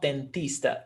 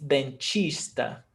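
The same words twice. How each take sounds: First: Dentista with a hard T, den-TEES-ta. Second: Dentista as den-CHEESH-ta; slow dentista, turning the T into CH; CH sound. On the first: Teacher shows what she doesn't say, hard T. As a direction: say dentista with TEE, no CH sound. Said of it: "it's not dentista". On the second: Teacher shows her own regional way, CH sound. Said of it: "The way I say it". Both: Shown as a demonstration.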